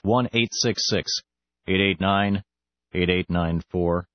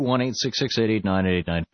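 First: The number is said slowly. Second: The number is said fast.

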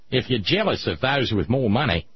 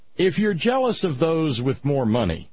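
First: It is said in an Australian accent. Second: It is said in his normal accent.

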